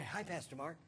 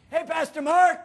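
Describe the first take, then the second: First: Low, hushed little hello; soft greeting. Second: Put-on high, loud kid's holler; calling out. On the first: Retold or imitated. Pastor recalling the kid's greeting that stopped him, softly. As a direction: say it small and quiet. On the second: Little bus kid hailing his pastor mid-fight, bright loud call. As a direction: sing out a greeting from a bus window.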